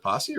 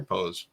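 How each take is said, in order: First: Posse said as PAH-see; two syllables in Posse, PAH then see; first candidate pronunciation. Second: Long O and Z sound in Pose; second candidate pronunciation. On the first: Host asking which is correct, Posse as PAH-see. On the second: Host asking which is correct, Pose as POHZ. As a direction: Pose said as one syllable, POHZ. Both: Shown as a demonstration. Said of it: "I don't know how the word is pronounced".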